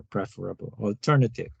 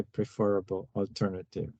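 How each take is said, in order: First: "preferable" said PREF-er-able, stress on the first syllable; "preferable" with the weight on PREF and a short e; PREF-erable. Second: "preferable" said pri-FER-able, stress on the second syllable; "preferable" with a light pri- and the weight on FER; pre-FER-able. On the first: Teacher offering the second way, stressing PREF in "preferable". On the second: Teacher reading the question, stressing FER in "preferable". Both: Shown as a demonstration. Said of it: "whichever way you like to pronounce the word".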